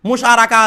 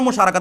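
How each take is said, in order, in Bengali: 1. শব্দটি একটি স্বরধ্বনি দিয়ে শেষ হয়, কোনো t নেই। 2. শব্দটির শেষে একটি স্পষ্ট t ধ্বনি উচ্চারিত হয়। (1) "মুশারাকা আছে এরকম বলে না" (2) "বলে ওর সাথে আমার মুশারাকাত আছে"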